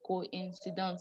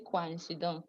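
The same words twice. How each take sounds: First: "coincidence" starting ko-in, with no "kwa"; O and I separated. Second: "coincidence" starting with a merged "kwa" sound; wrong diphthong version. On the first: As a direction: sound O and I apart in "coincidence": ko-in-si-dons. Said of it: "So we did not say qua". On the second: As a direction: run the O and I of "coincidence" together as "kwan-si-dons". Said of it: "We didn't say". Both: Shown as a demonstration.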